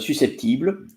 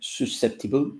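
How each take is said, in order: First: It is pronounced the French way. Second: It is pronounced the English way. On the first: "susceptible in French" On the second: "susceptible in English"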